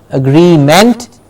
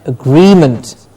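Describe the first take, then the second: First: The ending has a full ent vowel. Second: The ending is reduced to an int sound. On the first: The speaker calls it wrong. "Not agreement" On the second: The speaker calls it right. "but agreement"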